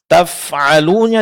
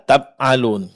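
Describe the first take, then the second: First: The middle consonant is a breathy f. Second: The middle consonant sounds like a b. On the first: The speaker calls it right. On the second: The speaker calls it wrong.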